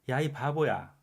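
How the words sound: It is said in a fond, teasing tone. The speaker is upset but still feels close. "나름 친근하게 부르는 의도죠"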